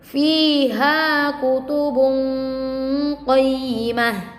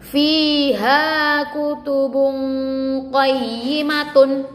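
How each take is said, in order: First: The last word ends with a soft h sound. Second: The last word ends with a full t sound. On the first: The reading stops at this word. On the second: The reading continues past this word.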